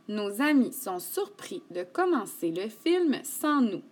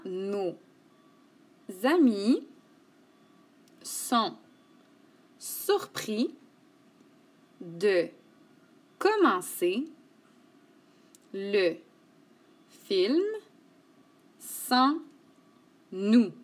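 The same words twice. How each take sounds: First: The sentence is read at normal speed. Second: The sentence is read slowly.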